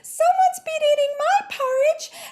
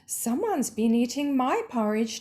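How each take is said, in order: First: The voice is pitched very high. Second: The voice is pitched in the middle. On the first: A small baby character is speaking. "Very high-pitched voice" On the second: A mid-sized mother character is speaking. "Her voice is medium pitched"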